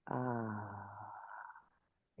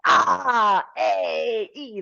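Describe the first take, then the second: First: The vowels are said quietly and calmly. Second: The vowels are yelled loudly.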